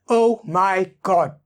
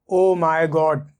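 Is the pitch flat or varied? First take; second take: varied; flat. First: The pitch moves between high and low. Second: The pitch stays flat and monotone. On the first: The speaker calls it right. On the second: The speaker calls it wrong.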